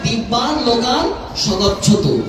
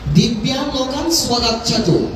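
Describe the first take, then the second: First: The verb begins with a plain 'sa' sound. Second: The verb begins with a 'sva' sound. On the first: May the dead person go to the divine worlds. The speaker calls it right. "এই জন্য উচ্চারণটা হবে" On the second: The dead person sends himself to the divine worlds. The speaker calls it wrong. "তিনি নিজেকেই দিব্য লোকে পাঠাচ্ছেন।"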